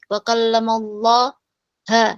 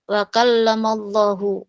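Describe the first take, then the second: First: The word Allah ends with an a vowel. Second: The word Allah ends with a u vowel. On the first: The speaker calls it wrong. "maka itu salah" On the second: The speaker calls it right. "Yang benar adalah wa kallamallahu"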